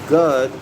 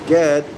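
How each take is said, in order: First: The middle vowel is a U sound. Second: The middle vowel is an E sound. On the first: "G U D" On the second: "G E D"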